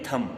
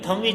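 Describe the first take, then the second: First: The word ends without a b sound. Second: The word ends with a b sound. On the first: The speaker calls it right. "इसको पढ़ते हैं थम" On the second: The speaker calls it wrong. "थंब is wrong"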